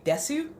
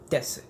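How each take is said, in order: First: The final u vowel is clearly pronounced. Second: The final u vowel is dropped, ending on s. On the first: The speaker calls it wrong. "I kept you you saying the full word" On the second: The speaker calls it right. "there's no U sound. There's just this"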